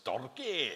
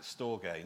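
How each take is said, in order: First: Mock Scottish rolled "storge"; Scottish accent. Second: Said in the usual way. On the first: Shown as a demonstration. Preacher joking that the Greek word sounds Scottish, Scottish accent. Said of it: "sounds sort of Scottish". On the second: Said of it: "not with a Scottish accent".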